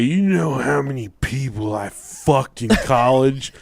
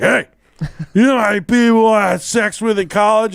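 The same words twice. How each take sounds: First: Put-on slow drunken boast; drunk brother. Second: Put-on louder, high-pitched drunken insistence; drunk brother. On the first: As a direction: imitate a drunk brother drawling a brag. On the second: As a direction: demand attention like a pushy drunk. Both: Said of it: "he was drunk and fall".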